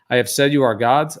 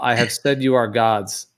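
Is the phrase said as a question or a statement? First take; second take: question; statement. First: It is said with a questioning tune. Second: It is said as a plain statement.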